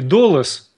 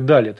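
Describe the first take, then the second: First: It is said with o vowels and final s. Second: It is said with a and e vowels and final t. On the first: "ашкеназское" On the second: "стандартное далет"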